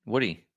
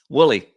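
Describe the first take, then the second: First: Says "Woody" with a d, the mistaken name; "Woody" with a plain d, not yet corrected; wrong name Woody. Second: "Wooly" with an l, said louder with a laugh; corrected name Wooly. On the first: Streamer misreads a viewer's name as "Woody". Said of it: "Wooly, not Woody". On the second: Streamer corrects himself to a viewer's right name, "Wooly" with an l. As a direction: lands on "Wooly", l not d, amused. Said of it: "not Woody". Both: Real, not acted.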